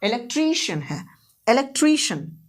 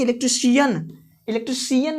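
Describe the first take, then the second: First: electrician with long "TREE" and short "shun"; correct stress. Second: electrician ending in a full "si-YAN"; wrong pronunciation. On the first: Teacher correcting the misreading, electrician as "elek-TREE-shun". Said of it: "ऐसा नहीं कि electrician". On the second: Teacher showing what to avoid, electrician as "elektri-SIYAN". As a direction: put the weight late in electrician, "elektri-si-YAN". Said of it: "ऐसा नहीं कि". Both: Shown as a demonstration.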